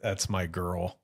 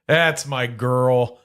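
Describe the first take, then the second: First: Low, tender aside; soft and fond. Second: Louder and slow, drawn out; slow proud declaration. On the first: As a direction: murmur it fondly. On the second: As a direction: announce it proudly, slowly. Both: Shown as a demonstration.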